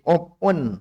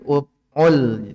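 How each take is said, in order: First: The n is pronounced clearly before l. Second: The n merges into the following l. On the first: The speaker calls it right. "tapi uf'un, jelas saja izhar" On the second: The speaker calls it wrong. "jangan di uf'ul"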